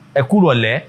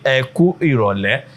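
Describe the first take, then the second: First: The words run together like one word. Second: Each word is said separately, with pauses.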